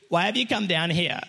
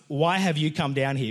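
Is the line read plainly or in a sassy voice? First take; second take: sassy; plainly. First: It is said in a sassy, mocking voice. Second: It is read plainly, without attitude.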